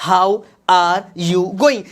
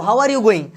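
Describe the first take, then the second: First: Slow, spaced-out "How are you going"; word by word. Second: Said in the usual way. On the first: Shown as a demonstration. Teacher repeats sentence word by word. (एक-एक शब्द धीरे-धीरे)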